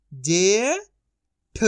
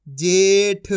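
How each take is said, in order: First: जे rising long, pause, ठ; syllable by syllable. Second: Said in the usual way. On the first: Shown as a demonstration. Teacher sounding out for learners, syllable by syllable. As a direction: split जेठ into two drawn-out sounds. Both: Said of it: "तो मिलके बन जाएगा".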